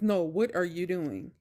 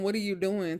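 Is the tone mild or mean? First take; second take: mean; mild. First: It is said in a mean, harsh tone. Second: It is said in a mild, ordinary tone.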